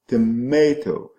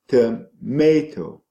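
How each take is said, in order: First: The weak first syllable is said in full. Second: The same.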